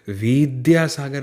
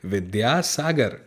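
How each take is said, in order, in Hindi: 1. पहला स्वर लंबा है। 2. पहला स्वर छोटा है। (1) "मैंने यहाँ पर विद्यासागर नहीं कहा क्योंकि वह में छोटी की मात्रा है" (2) "वह में छोटी की मात्रा है"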